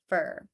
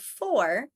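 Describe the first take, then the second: First: The word is reduced to 'fur'. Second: The word is said in full as 'four'. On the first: "you'll hear fur" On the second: "Instead of four"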